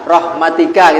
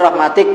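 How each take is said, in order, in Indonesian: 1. Kata ini berakhir dengan bunyi vokal. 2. Kata ini berakhir dengan konsonan, vokal akhirnya hilang.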